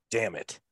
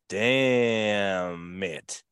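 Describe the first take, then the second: First: Short, soft repeat; admiring aside. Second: Long stretched-out first word; admiring drawl. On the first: Husband looking at his wife getting ready, admiring aside. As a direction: drop it quickly under the breath. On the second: Husband looking at his wife getting ready, admiring drawl. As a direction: draw it right out, falling slowly. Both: Retold or imitated.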